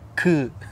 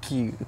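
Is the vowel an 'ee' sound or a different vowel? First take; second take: different vowel; ee. First: The vowel is not an 'ee' sound. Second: The vowel is an 'ee' sound. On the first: The speaker calls it right. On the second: The speaker calls it wrong. "Not ki"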